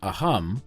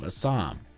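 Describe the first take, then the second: First: The middle consonant is a throaty h sound. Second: The middle consonant is a plain s sound.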